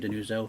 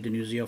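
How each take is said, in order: First: The name ends with a plain oh sound. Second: The name ends with an ee-oh sound. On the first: This way people would not misspell it. "my mother actually would say Denuzo" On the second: This is the family's older way of saying it. "that's actually how my grandfather pronounced it"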